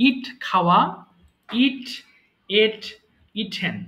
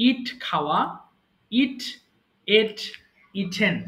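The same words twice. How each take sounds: The two takes are said the same way.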